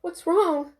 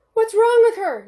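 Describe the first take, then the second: First: Higher, anxious; panicked question. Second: Loud, high, frantic; panicked yell. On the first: Mother asking the doctor in a panic. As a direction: ask in sudden worry. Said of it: "asked Lisa, panicking". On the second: Mother yelling at the doctor in panic. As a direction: scream the question at the doctor. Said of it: "Lisa yelled". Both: A narrator's reading.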